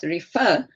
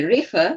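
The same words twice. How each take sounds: First: The stress is on the second syllable. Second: The stress is on the first syllable. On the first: The speaker calls it right. "second syllable. Very good" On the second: The speaker calls it wrong. "you don't say refer"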